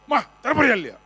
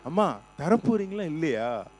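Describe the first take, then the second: First: The request is shouted harshly. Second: The request is said softly and politely.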